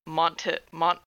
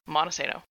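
First: The T sound is pronounced hard. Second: The T sound is dropped entirely. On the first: The speaker calls it wrong. "I've been pronouncing the T too hard and saying Montesano" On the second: The speaker calls it right. "Like no T, hard A"

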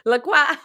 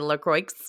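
First: The name is said in a French way. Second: The name is said in a Midwestern American way.

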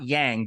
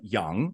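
First: The vowel is a hard A sound. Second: The vowel is a soft A sound. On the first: The speaker calls it wrong. "not Yang" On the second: The speaker calls it right. "soft A"

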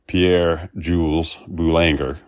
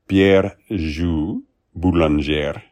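First: The name is said with a Texan accent. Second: The name is said with an attempted French accent. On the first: "In Texas, it would be" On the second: "I completely butchered that pronunciation in French, but I tried my best"

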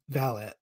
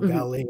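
First: The word is said with a British pronunciation. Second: The word is said with an American pronunciation. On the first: "since I've listened to so many audiobooks, I cannot help but say valet" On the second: "as I would say in American"

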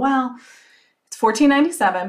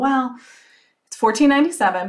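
First: It sounds hesitant and unsure. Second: The same.

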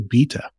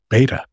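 First: It is said in a British accent. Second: It is said in an American accent.

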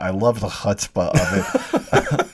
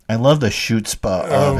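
First: It is said in the speaker's normal way. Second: It is said in a mock-Protestant way.

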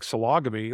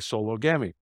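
First: It is said as one word rhyming with 'polygamy'. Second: It is said as two parts, 'solo gammy'. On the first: "sounds like sologamy, like polygamy" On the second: "I'm going to say solo gammy"

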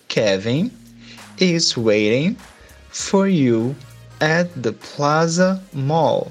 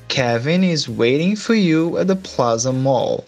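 First: It is said more slowly. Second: It is said at normal speed.

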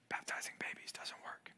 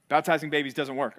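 First: The sentence is spoken in a whisper. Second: The sentence is spoken in a full voice. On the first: The speaker wants the claim kept quiet. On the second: The speaker states the claim openly.

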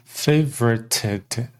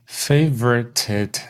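Both takes have the same delivery.

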